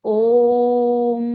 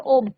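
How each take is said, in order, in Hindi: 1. स्वर बहुत लंबा खींचकर बोला गया है। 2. स्वर छोटा बोला गया है। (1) "लेकिन हम ओम का उच्चारण ऐसे नहीं करते, हम कहते हैं ओम" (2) "अगर आप इसे शॉर्ट में पढ़ें, ये साइन ना हो"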